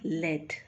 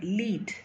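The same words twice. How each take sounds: First: The vowel is a short 'e' sound. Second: The vowel is a long 'ee' sound. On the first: A metal. "Lead means a metal" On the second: A position, an advantage, or taking initiative. "the first word"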